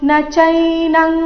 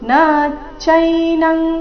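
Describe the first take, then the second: First: The vowel of the first word is kept short. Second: The vowel of the first word is drawn out long. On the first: The speaker calls it right. "ಈ ರೀತಿ ಬರಬೇಕು" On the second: The speaker calls it wrong. "ನ ದೀರ್ಘ ಮಾಡಬಾರ್ದು ನ ಚೈನಂ ಈ ರೀತಿ ಮಾಡಬಾರ್ದು"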